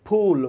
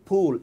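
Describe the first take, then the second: The two takes are said the same way.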